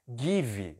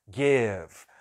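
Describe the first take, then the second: First: It is pronounced in a Brazilian-style way. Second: It is pronounced in a native-English way. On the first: The speaker calls it wrong. "você deve ter aprendido a vida inteira que era give" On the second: The speaker calls it right. "a pronúncia é give"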